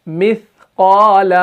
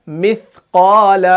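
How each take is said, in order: Both takes have the same delivery.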